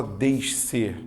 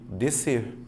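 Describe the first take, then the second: First: Descer with a sh then an s, deʃ-ser; teacher showing how not to say descer; wrong descer. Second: Descer said softly as de-ser, one s sound; teacher giving the right descer; correct descer. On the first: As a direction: split the sc in descer into two sounds. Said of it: "você não fala descer". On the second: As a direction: say descer quietly with a single s. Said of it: "um único som". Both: Shown as a demonstration.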